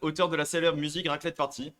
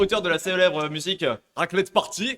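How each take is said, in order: First: It is said in his normal voice. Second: It is said in a put-on accent.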